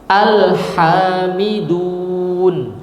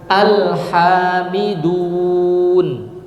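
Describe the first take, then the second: Both takes have the same delivery.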